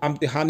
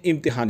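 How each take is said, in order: First: इम्तिहान said as "amtihaan", opening on 'a'; starts with a. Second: इम्तिहान said as "imtihaan", opening on short 'i'; starts with i. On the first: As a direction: open इम्तिहान with 'uh', not 'i'. (इम्तिहान को 'अम्तिहान' बोलें, शुरू में 'अ') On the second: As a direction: open इम्तिहान with a clear 'i'. (इम्तिहान, शुरू में छोटी 'इ') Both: Shown as a demonstration. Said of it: "थोड़ा सा आ और ई का फ़र्क".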